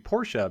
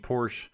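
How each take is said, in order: First: It is said with a German pronunciation. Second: It is said with an English pronunciation. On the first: This follows how the family says its name. The speaker calls it right. "the way the family's name is pronounced in German" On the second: This is the familiar everyday way. The speaker calls it wrong. "I've been saying Porsche my whole life"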